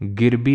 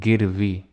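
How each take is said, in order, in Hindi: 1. बीच के व्यंजन को 'b' की तरह बोला जाता है। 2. बीच के व्यंजन को 'v' की तरह बोला जाता है। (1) "जहाँ तो तुम्हें वाह बोलना चाहिए बा बोल रहे हो" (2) "नहीं गिरवी"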